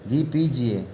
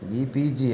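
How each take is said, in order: First: घी given the weight, पीजिए falling away; stress on घी. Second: पीजिए given the weight after a light घी; stress on पीजिए. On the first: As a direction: lean on घी as the answer. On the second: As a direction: repeat it, leaning on पीजिए. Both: Shown as a demonstration. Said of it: "क्या कीजिए?".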